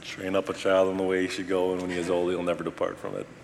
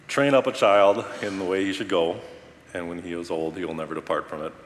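First: It is said at a normal speed. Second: It is said more slowly.

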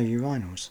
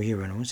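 First: It is said in a British pronunciation. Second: It is said in an American pronunciation.

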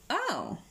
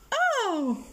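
First: It is a quiet, low-key sigh. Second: It is a loud, dramatic cry.

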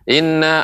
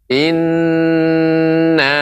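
First: The n sound is rushed and short. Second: The n sound is held long. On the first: The speaker calls it wrong. "kurang tepat" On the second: The speaker calls it right. "harus diberi tempo"

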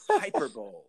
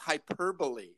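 First: The word ends with a 'bowl' sound. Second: The word ends with a 'bolee' sound. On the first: This is the older pronunciation the speakers prefer. "It sounds like it's a type of a bowling game" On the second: This is the standard pronunciation that everyone now uses. "some fancy pants person said"

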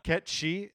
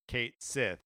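First: Said as 'Ket-shee' with a final 'ee'. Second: Said as 'Kate Sith' with a final 'th'.

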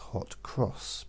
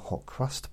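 First: The second word ends with an s sound. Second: The second word ends with an st sound. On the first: The speaker calls it right. "It's hot cross because they've got crosses on them" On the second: The speaker calls it wrong. "that's not the correct way to say it"

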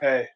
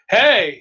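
First: It is said in a low, deep voice. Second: It is said in a high, raised voice.

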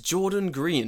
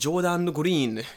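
First: The name is said with natural English sounds. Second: The name is said with Japanese katakana-style sounds. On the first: The speaker calls it right. "It's Jordan Green" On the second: The speaker calls it wrong. "not Jordan Green"

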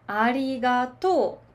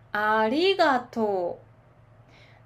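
First: The pitch stays high on the syllable 'to'. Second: The pitch drops low on the syllable 'to'. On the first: This is how it is said in Osaka. "でも大阪ではありがとうなんですよね。ありがとう、とが高くなるね。" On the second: This is how it is said in Tokyo. "東京のピッチアクセントはありがとう、とが低くなります。"

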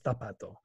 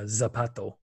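First: The first consonant is a th sound. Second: The first consonant is an s sound. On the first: "without the Cesio" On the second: "Cesio is where you do say the S or Z sound"

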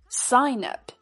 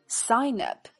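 The two takes are said the same way.

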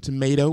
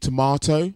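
First: It is pronounced the American way. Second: It is pronounced a non-American way. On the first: The speaker calls it wrong. "in America, they say tomato" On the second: The speaker calls it right. "when it's actually tomato"

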